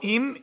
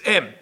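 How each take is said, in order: First: The word has an 'ee' vowel. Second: The word has an 'eh' vowel. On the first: The speaker calls it wrong. "don't say im with chirik" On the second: The speaker calls it right. "you should put the vowel betzere"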